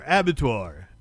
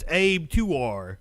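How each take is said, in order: First: The name is pronounced the usual, standard way. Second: The name is pronounced in a deliberately distorted way. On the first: The speaker calls it right. "I was saying it right then" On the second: The speaker calls it wrong. "I wanted to start fucking people's names up"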